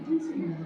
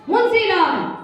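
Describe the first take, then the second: First: The name is said weakly, fading away. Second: The name is called out loudly.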